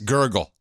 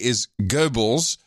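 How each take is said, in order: First: The name is said like the word gurgle. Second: The name is said as Goebbels. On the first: The speaker calls it wrong. "Yes, gurgle" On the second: The speaker calls it right. "what I would say is Goebbels"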